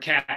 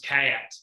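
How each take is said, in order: First: The vowel is short and plain. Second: The vowel is drawn out in a drawl.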